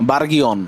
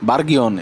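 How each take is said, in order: Both takes have the same delivery.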